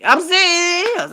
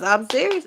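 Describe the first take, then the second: First: High, loud, slow insistence; drawn-out insistent declaration; emphatic. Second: Said in the usual way. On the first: Real, not acted. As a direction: lean hard on serious.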